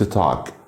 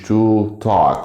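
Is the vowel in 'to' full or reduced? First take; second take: reduced; full. First: The word 'to' has a reduced vowel. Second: The word 'to' has a full vowel. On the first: "قلت to talk" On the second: "ما قلتش to talk"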